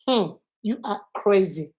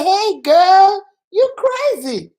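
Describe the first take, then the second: First: Hum, then a softer, measured verdict; serious judgment. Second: High, loud greeting, drawn out on crazy; playful teasing. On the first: Teacher showing the same words meant seriously, disapproving. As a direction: drop the playfulness and judge them quietly. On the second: Friend joking that a girl is crazy, playfully. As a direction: tease a girlfriend, pitched way up. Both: Shown as a demonstration. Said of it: "the same thing I said".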